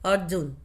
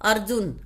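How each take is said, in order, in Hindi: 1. r सीधे j से जुड़ा होता है। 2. r को एक अलग, पूरे अक्षर की तरह बोलते हैं। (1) "अर्जुन नहीं है" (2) "तुम बोलते हो ना"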